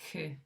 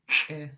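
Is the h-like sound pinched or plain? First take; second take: plain; pinched. First: The h-like sound flows out as a plain breath. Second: The h-like sound is tight, with a pinched snap. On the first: "without an apostrophe, it would sound like h" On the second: "with it pinched, it sounds like h"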